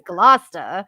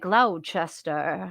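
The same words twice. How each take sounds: First: The name is said in the local pronunciation. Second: The name is said in an outsider's pronunciation. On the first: This is how locals say it. The speaker calls it right. "Like it's Gloucester" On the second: This is how people from elsewhere say it. The speaker calls it wrong. "People be like Gloucester"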